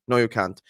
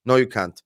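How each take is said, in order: Both takes have the same delivery.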